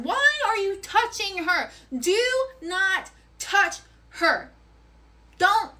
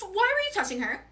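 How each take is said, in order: First: Each word of "Why are you touching her?" spaced out, high and hard; slowed, pitched-up angry demand; furious slow warning. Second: Angry accusation. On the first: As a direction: lay down the law, word by word. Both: Retold or imitated. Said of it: "And I'm like".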